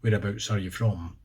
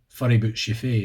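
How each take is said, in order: First: It is said in a standard English accent. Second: It is said in a broad Aberdeen Scots accent.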